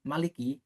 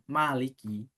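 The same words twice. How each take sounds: First: The first vowel is kept short. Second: The first vowel is held long. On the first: It means king. "pendek berarti raja" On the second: It means owner. "yang berarti adalah pemilik"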